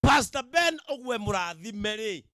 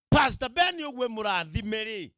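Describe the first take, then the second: No difference in how they are said.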